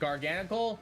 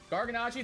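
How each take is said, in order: First: The name ends with a 'kul' sound. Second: The name ends with a 'chee' sound. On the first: The speaker calls it wrong. "that it's not a homie" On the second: The speaker calls it right. "Garganachi is the is how the cultured pronounce it"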